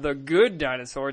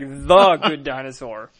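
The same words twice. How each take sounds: First: The word 'the' is said without stress. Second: The word 'the' is strongly stressed. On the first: "It's not The Good Dinosaur" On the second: "they underline the word the"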